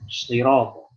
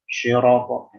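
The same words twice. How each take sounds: First: The first consonant is a heavy emphatic s sound. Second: The first consonant is a middle-tongue sh sound. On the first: The speaker calls it right. "Jelaskan shotnya" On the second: The speaker calls it wrong. "Syiratal salah"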